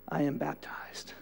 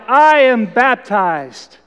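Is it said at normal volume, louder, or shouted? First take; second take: normal; shouted. First: It is said aloud at normal volume. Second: It is shouted at full volume.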